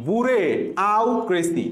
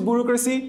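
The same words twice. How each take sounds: First: "বুড়ে", pause, "আউ ক্রেসি"; memory-trick pronunciation. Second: Said in the usual way. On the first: Shown as a demonstration. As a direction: split it as boo-ray, then au-cracy. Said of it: "তাহলে আমি কিভাবে উচ্চারণ করছি". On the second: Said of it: "আমি কিভাবে উচ্চারণ করছি".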